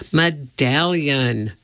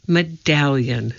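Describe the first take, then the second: First: MEDALLION slowly drawn out; insistent correction. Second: MEDALLION as a brisk correction; "medallion" said at normal pace, matter-of-fact; correcting. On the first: Jack corrects Annie for the third time, insistent. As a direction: stretch "medallion" syllable by syllable to correct. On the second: Jack corrects Annie about the gold medal, correcting. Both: A narrator's reading. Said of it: "said Jack for the third time".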